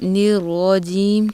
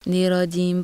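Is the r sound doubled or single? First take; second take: doubled; single. First: The r is held strong and doubled. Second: The r is short and single. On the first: The speaker calls it right. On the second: The speaker calls it wrong.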